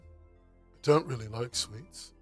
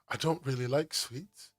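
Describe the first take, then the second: First: It is said in a put-on London accent. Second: It is said in the speaker's ordinary accent.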